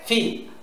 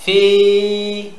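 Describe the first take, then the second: First: "ফি" said short, with no stretch; short vowel. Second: "ফি" with the i held long and level; long vowel. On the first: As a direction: cut the i of "ফি" short. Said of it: "তাহলে শুধু ফা জের ফি". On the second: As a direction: stretch the i of "ফি" steadily. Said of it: "আমরা ফিটাকে টান দেবো". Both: Shown as a demonstration.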